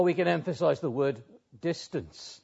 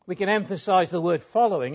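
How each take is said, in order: First: Emphasis placed on the word "distance"; stress on distance. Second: Emphasis placed on the word "following"; stress on following. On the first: Preacher showing listeners another way to emphasise the verse, stress on "distance". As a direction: set "distance" apart as the key word. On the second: Preacher showing listeners one way to emphasise the verse, stress on "following". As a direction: lean on "following" to point it out. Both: Shown as a demonstration. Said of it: "put the emphasis on these words".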